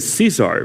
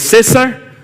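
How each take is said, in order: First: It is said with an English pronunciation. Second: It is said with a Spanish pronunciation. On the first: The speaker calls it wrong. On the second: The speaker calls it right.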